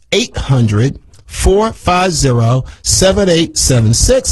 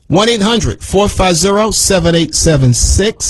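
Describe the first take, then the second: First: Number repeated slower for listeners to write down; slow the number down so listeners can note it; a little slower. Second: Said in the usual way. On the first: Shown as a demonstration. Host repeats the phone number to listeners, slower. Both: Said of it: "Let me say it a little slower for you".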